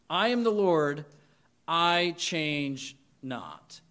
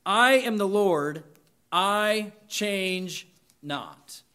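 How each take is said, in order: First: Quiet repetition. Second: "I am the Lord" louder, "I change not" drawn out very slow; slow emphatic declaration. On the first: Pastor repeating the verse softly for the congregation to absorb. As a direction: let it settle gently. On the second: Pastor proclaiming the verse to graduates, slow and weighty. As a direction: lean on every word of "I change not". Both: Shown as a demonstration. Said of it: "and it's this".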